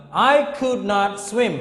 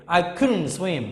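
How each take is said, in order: First: "could not" as two separate full words; full uncontracted form. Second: "couldn't" run together as one word; short contracted form. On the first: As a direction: say "could not" fully, each word distinct and a bit raised. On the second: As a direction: contract it to a quick, joined "couldn't". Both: Shown as a demonstration. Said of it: "when we short it".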